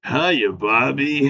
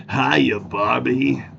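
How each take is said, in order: First: Slow, crooning mock seductive voice; Ken's sexy man voice. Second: Very slow, crooning mock seductive voice; Ken's sexy man voice.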